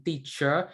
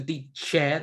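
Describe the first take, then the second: First: Said in the usual way. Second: "teacher" said slowly as "tee-sheh"; Burmese pronunciation. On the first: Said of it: "transport from teacher to teacher". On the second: Shown as a demonstration. Asking how the word changed, "teacher" pronounced "tee-sheh". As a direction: open "eh" ending on "teacher", no r. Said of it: "to teacher".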